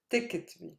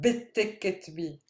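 First: The b runs straight into the t. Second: A vowel sound comes after the b. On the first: The speaker calls it right. "Close your lips, then say ta" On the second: The speaker calls it wrong. "not bit ticket be, no"

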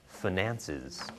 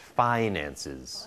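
First: The stress falls on the second syllable. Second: The stress falls on the first syllable. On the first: "in the second version, the first syllable is a short vowel, and the stress is on the second syllable" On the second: "In the first version, the first syllable is a diphthong, phi, phi, and stressed"

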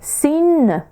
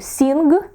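First: The ending is a pure nasal with no g. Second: The ending has a hard g after the n. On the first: The speaker calls it right. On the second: The speaker calls it wrong.

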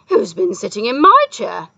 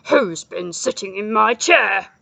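First: It is said in a howling voice. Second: It is said in a growling voice.

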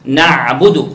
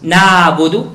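First: The ain sound is short, not stretched. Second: The ain sound is held and stretched out. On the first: The speaker calls it right. "the right way to pronounce the عين" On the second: The speaker calls it wrong. "not نعبدو"

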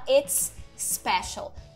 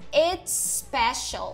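First: The two s sounds are said separately. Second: The two s sounds merge into one. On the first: "Eu não preciso falar it's special" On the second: "Eu conecto os dois S's"

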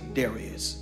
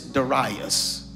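First: Darius is pronounced in the everyday colloquial way. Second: Darius is pronounced in the scholarly way. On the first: "for our colloquial understanding, I'm just going to say Darius" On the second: "there are some scholarly theologians who pronounce this Darius"

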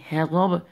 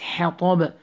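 First: The first h is a plain, light breathy sound. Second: The first h is a tight, raspy sound from the throat. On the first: The speaker calls it wrong. "So don't say hatab" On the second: The speaker calls it right. "It's hatab"

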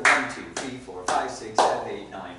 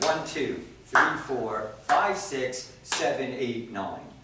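First: The counting is at a faster pace. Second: The counting is at a slower pace.

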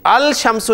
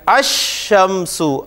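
First: The l is pronounced before the sh. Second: The l is silent; the sh is doubled. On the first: The speaker calls it wrong. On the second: The speaker calls it right.

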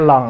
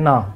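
First: The word begins with an l sound. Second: The word begins with an n sound. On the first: The speaker calls it right. "l ổng ra n" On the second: The speaker calls it wrong. "ổng kêu cái non"

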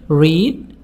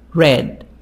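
First: It is pronounced as the present-tense form. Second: It is pronounced as the past-tense form. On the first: The action happens now or habitually. "The present" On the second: The action happened in the past. "like the past. But the way of speaking is different"

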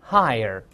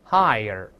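The two takes are said the same way.

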